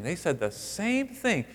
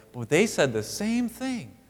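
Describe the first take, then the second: First: They said the SAME thing, weight on same; stress on same. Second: They said the same thing with the weight on they; stress on they. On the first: Preacher noting both sisters matched, stress on same. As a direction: hit same, slow and deliberate. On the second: Preacher pointing out who said it, stress on they. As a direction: lean on they, slow and deliberate. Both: Shown as a demonstration.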